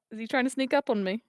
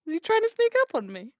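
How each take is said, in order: First: Said in the usual way. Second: Higher-pitched suspicious question; mock suspicion. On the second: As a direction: raise the pitch in mock alarm. Repeated question, building to higher take.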